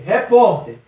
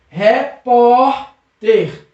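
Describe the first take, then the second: First: Said in the usual way. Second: "repórter" very slow, with a long held PÓ; stressed syllable stretched. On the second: Shown as a demonstration. Teacher showing the strong syllable, "repórter" split with stretched PÓ. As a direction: break up "repórter" and lean on PÓ. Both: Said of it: "Percebeu que o pó é mais forte?".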